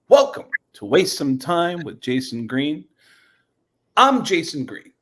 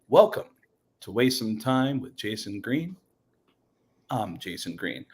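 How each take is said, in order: First: It is said in a lively, energetic manner. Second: It is said in a plain, even manner. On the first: "upbeat Jason Green" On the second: "There's the standard"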